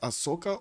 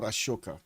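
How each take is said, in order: First: The middle consonant is a plain s sound. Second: The middle consonant is an sh sound. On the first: "Is it Ahsoka or Ashoka?" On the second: "you do get that uh, sh in"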